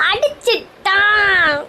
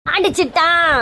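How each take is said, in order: First: Very slow, stretched howl; drawn-out wail. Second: Short cry of outrage; stunned wail. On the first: Wife just hit by husband, long drawn-out wail. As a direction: drag every syllable into a long wail. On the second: Wife just hit by husband, first stunned wail. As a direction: cry out the accusation, last vowel held a little. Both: Acted.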